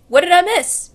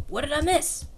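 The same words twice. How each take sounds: First: Louder, bright "What did I miss?" with a lift; excited Sonic. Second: Said in the usual way. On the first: Acted. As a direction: burst in cheerful as Sonic. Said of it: "And Sonic's like".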